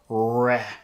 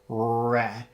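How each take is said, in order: First: The R sound is a clear, strong R. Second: The R sound is a clear, strong R.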